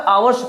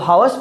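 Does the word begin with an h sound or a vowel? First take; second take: vowel; h sound. First: The word begins with a vowel sound. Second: The word begins with an h sound. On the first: The speaker calls it right. "आवर्स पढ़ते हैं" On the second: The speaker calls it wrong. "हावर्स पढ़ते हो"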